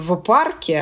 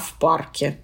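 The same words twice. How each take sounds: First: The first consonant is a voiced v sound. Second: The first consonant is a voiceless f sound. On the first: The speaker calls it wrong. "мы говорим не «в парке»" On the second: The speaker calls it right. "а «в парке»; вот это оглушение"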